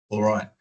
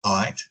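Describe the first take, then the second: First: Said in the usual way. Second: "Aight." as one short syllable, the l dropped; clipped Aussie all right. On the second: Shown as a demonstration. Showing the interviewer the clipped Aussie "Aight.". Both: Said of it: "missing a lot of letters".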